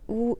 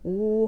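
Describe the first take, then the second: First: The vowel is said short and clipped. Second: The vowel is said long and full. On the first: The speaker calls it wrong. "그냥 짧게 우 이렇게 하는 게 아니고" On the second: The speaker calls it right. "우를 그대로 발음이 된다"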